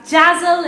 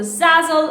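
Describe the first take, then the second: First: "Jazzle" begun with a J; "Jazzle", J instead of Z; J pronunciation. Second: "Zazzle" begun with a Z; "Zazzle", Z rather than J; Z pronunciation. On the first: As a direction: say "Jazzle" to start like jazz. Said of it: "Those used to pronounce Zazzle". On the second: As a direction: say "Zazzle" to start like zoo. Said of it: "instead of the Zazzle". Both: Shown as a demonstration.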